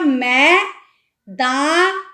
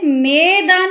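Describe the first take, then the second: First: The word is said with a break between syllables. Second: The word is said smoothly without a break. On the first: "मैंने बोला मैं दान" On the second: "मैंने मैदान नहीं बोला"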